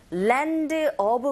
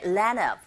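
First: Said in the usual way. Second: "land of" linked as "lan-uv", d nearly gone; weakened d. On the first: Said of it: "land of 발음하실 때". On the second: Shown as a demonstration. Teacher shows how it can sound, "land of" with weakened d. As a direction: say "land of" as one word, swallowing the d. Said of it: "드 사운드가 아주 약하게".

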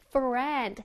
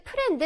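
First: "friend" with upper teeth flicked off the lower lip; English "friend" starting on a real F; one clean English syllable, "friend", with a clear F; proper F sound. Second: "프렌드" with a P sound in place of F; Koreanised "프렌드" with an added final vowel; Korean-style mispronunciation. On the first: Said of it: "윗니빨로요. 아랫입술을 살짝 튕겨줘야 돼요". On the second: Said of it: "That's a no". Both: Shown as a demonstration.

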